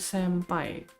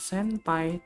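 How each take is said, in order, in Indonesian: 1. Bunyi sengau sebelum p terdengar seperti m. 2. Bunyi sengau sebelum p terdengar seperti n. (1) "tapi senpai" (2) "Sebenarnya cara bacanya bukan senpai"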